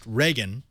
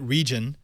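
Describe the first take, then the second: First: The name sounds like the surname Reagan. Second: The name sounds like the word region. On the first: "I've heard it pronounced Reagan" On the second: "Some are calling it region"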